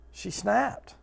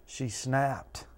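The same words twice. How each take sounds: First: "She snapped." repeated higher, with a rise on "snapped"; emphatic repeat. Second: Said in the usual way. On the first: Shown as a demonstration. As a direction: lift "snapped" up high.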